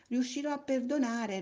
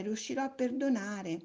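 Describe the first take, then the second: First: High, eager first promise. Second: Said in the usual way. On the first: A narrator's reading. Little soul promises joyfully to forgive, voice lifted high.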